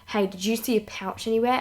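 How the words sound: It is said in an intimidating, threatening voice.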